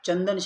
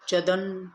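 First: The first syllable is said with nasal sound. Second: The first syllable is said without nasal sound. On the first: The speaker calls it right. "चंदन शब्द कोणता आहे, योग्य" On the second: The speaker calls it wrong. "नाही, हा शब्द चुकीचा आहे"

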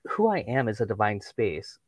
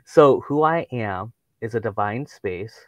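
First: It is said at a normal pace. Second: It is said more slowly.

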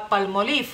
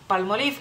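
The two takes are said the same way.

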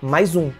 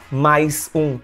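First: The words run together with a z sound. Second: The two words are said separately. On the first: "Você coloca um zoom aí no meio do nada" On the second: "Você não vai pronunciar mais um"

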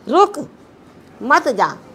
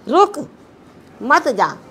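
First: There is a pause after 'ruk'. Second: The same.

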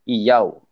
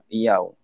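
First: The second vowel starts with a y sound. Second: The second vowel starts with a y sound.

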